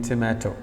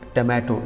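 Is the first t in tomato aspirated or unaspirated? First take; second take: aspirated; unaspirated. First: The first t has a puff of air. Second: The first t has no puff of air. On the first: This is how it is said in English. "instead of saying tomato" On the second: This is how Urdu speakers say it in English. "we say tomato"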